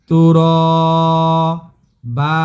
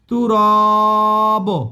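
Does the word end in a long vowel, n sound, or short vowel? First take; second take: long vowel; short vowel. First: The word ends with a lengthened vowel. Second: The word ends with a short vowel. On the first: The speaker calls it right. "এখানে এক আলিফ টান দিবেন আর একটা জবর উচ্চারণ করবেন" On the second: The speaker calls it wrong. "এটাও হবে না।"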